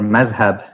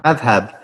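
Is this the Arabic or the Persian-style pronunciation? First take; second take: Persian; Arabic. First: It is said with the Persian-style pronunciation. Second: It is said with the Arabic pronunciation. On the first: "in Persian, Turkish, Urdu pronunciation" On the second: "in Arabic"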